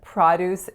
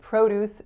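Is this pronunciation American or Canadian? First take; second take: Canadian; American. First: It is said the Canadian way. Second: It is said the American way. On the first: "the Canadian way" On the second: "the American way"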